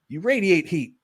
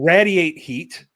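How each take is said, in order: First: Radiate is said in the standard way. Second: Radiate is said in the local Pittsburgh way. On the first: The speaker calls it right. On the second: The speaker calls it wrong.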